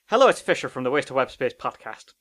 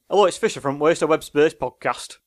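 First: It has an Irish accent. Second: It has a Lancashire accent.

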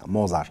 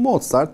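First: The name is said without its final t. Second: The name is said with its final t. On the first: This is the French reading of the name. "Fransızlar sondaki T'yi de okumuyor" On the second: This is the German reading of the name. "çünkü Almanca okuyacaksak öyle"

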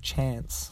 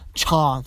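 First: The word is said in a plain accent. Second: The word is said in a posh accent. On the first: This is how the rest of the country says it. "instead of chance" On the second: This is how people from one city say it. "They have a little more posh accent. They say chance"

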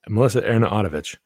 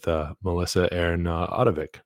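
First: The name is said at a fast pace. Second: The name is said at a slower pace. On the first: The speaker calls it right. "Just got to say it fast" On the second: The speaker calls it wrong. "I said it wrong again"

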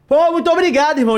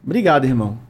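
First: The voice is raised and loud. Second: The voice stays calm and level.

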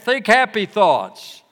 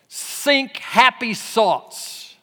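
First: It is said in a plain American accent. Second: It is said with a German accent.

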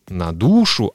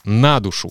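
First: The stress falls on the noun's last syllable. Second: The stress falls on the preposition. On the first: The speaker calls it wrong. "не на душу" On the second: The speaker calls it right. "а на душу"

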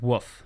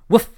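First: The word is said as a plain word. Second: The word is barked like a dog's woof. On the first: The speaker calls it wrong. "Instead of woof" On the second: The speaker calls it right. "when he pronounces it, he says, Woof!"

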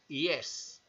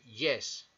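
First: The y is a soft vowel-like glide. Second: The y is a hard Spanish-style consonant. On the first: The speaker calls it right. "se dice yes" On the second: The speaker calls it wrong. "No se dice yes"

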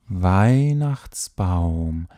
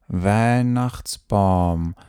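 First: The diphthongs sound full, with more lip movement. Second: The diphthongs sound flat, with little lip movement. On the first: The speaker calls it right. "bewege deine Lippen ein bisschen mehr während des Weihnachtsbaums, damit es einfach schöner klingt" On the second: The speaker calls it wrong. "Solltest du dich jetzt ertappen dabei zu sprechen"

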